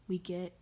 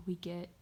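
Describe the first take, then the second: No difference in how they are said.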